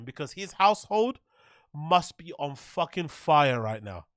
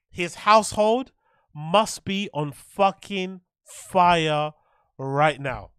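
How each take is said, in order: First: Said in the usual way. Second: "household" and "fucking fire" dragged out slowly and loud; slow emphatic repeat. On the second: Real, not acted. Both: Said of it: "repeats for emphasis".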